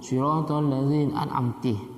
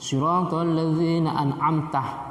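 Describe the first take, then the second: First: The last word ends with an 'i' vowel. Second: The last word ends with an 'a' vowel. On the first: It addresses a woman. The speaker calls it wrong. "atau kasrah" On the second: It addresses God as the one who gave favor. The speaker calls it right. "mestinya fathah"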